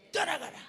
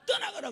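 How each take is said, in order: First: Higher, louder rebuke on 떠나가라; loud 떠나가라 with a falling end; commanding shout. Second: Much higher, loud 떠나가라; 떠나가라 shouted high and hard; shouted rebuke. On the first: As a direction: bark 떠나가라 like a deliverance command. Repeated command in prayer. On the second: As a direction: cry out 떠나가라 at the peak. Climax of child's prayer. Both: Retold or imitated.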